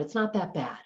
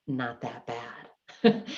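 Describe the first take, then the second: First: Said in the usual way. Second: Very slow, drawn-out deadpan with a rising tune; ironic understatement. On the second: Retold or imitated. Daughter seeing the messy garage, slow ironic deadpan. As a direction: stretch out "Not that bad" slowly with a sarcastic rise. Tolerance had completely changed.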